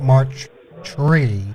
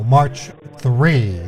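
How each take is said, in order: First: The word begins with a plain t sound. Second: The word begins with a th sound. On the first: The speaker calls it wrong. "not March tree" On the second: The speaker calls it right.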